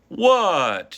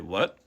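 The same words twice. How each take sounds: First: The pitch does not rise. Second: The pitch rises slightly. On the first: The speaker calls it wrong. "You wouldn't say what" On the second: The speaker calls it right. "Your voice rises slightly"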